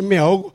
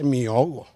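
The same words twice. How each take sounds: First: The first word ends in an 'e' sound. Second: The first word ends in an 'i' sound. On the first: The speaker calls it right. "Se dice" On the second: The speaker calls it wrong. "no se dice mi ahogo"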